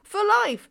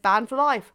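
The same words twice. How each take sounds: First: Incredulous outburst. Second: Said in the usual way. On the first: Real, not acted. Outraged repeat of ban.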